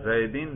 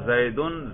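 First: The word ends in -in. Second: The word ends in -un. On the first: The word follows a preposition. "یا جر" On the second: The word is the subject of the sentence. "اس پر آپ رفع پڑھ رہے ہیں"

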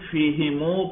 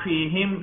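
First: The word ends with an added u vowel. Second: The word ends on the consonant m. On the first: The speaker calls it right. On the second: The speaker calls it wrong.

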